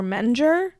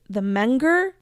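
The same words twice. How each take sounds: First: "Menger" as MEN-jer, with a j sound; soft-g pronunciation. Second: "Menger" as MENG-ger, hard g; hard-g pronunciation. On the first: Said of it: "I think it's Menger". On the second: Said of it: "don't know how to pronounce". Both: Shown as a demonstration.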